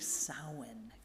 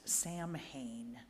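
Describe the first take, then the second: First: It is pronounced in the traditional Gaelic way. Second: It is pronounced the way the spelling looks. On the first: The speaker calls it right. "but it's actually Samhain" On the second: The speaker calls it wrong. "looks like it should be pronounced Samhain"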